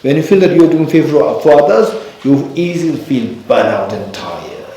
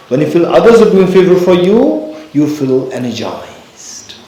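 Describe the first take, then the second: First: Teaching contrast, first case; contrast stress. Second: Teaching contrast, higher emphatic second case; contrast stress. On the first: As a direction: stress on "feel" and "others" in "doing favor for others", pitch rising on "feel". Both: Shown as a demonstration. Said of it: "So what's the difference?".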